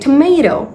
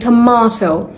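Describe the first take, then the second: First: It is said with an American accent. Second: It is said with a British accent. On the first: "In American English, we say" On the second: "in British English, we're saying"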